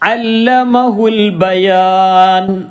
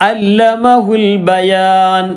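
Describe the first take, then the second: First: It links on with the 'a' sound dropped. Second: It links on with the 'a' sound dropped.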